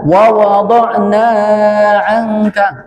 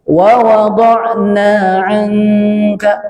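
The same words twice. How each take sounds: First: The vowel of 'na' is stretched too long. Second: The vowel of 'na' is held only briefly. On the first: The speaker calls it wrong. "Jangan ... kepanjangan itu" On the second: The speaker calls it right. "Cukup dua harakat"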